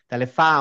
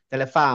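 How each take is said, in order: Both takes have the same delivery.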